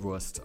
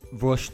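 First: The word ends with a plain 'st' sound. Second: The word ends with a 'sht' sound. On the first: The speaker calls it wrong. "und nicht Wurst" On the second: The speaker calls it right. "dass man immer Wurst sagt"

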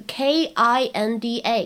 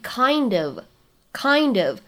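First: The words merge, with 'of' reduced to 'a'. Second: The two words are linked, with 'of' kept. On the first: "在口语当中直接读成kind 就这个 kinda 也是可以的" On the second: "你可以把它连读成为kind of"

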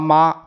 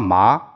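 First: It is said with the first tone. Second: It is said with the second tone. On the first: "一二三四声" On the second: "一二三四声"

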